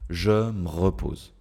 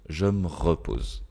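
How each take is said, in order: First: Je is kept and the vowel of me dropped. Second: Je is kept and the vowel of me dropped.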